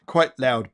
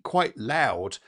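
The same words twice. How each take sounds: First: Mock loud. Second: Said in the usual way. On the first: Shown as a demonstration.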